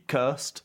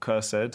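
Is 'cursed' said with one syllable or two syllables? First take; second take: one syllable; two syllables. First: Cursed is said as one syllable. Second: Cursed is said with two syllables.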